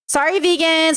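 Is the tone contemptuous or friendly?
friendly. It sounds warm, gentle and friendly. The comment is meant innocently and kindly. "Like peace and love. Then it's like kind of cute"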